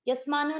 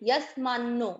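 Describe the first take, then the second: First: The n sound is short and single. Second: The n sound is held long and doubled. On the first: The speaker calls it wrong. "यस्मानो नहीं" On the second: The speaker calls it right. "आधा न उच्चारण में आना चाहिए"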